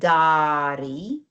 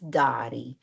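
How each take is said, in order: First: The first vowel is held long. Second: The first vowel is short. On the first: The speaker calls it wrong. "It's not dari" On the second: The speaker calls it right. "That's why the a drops out"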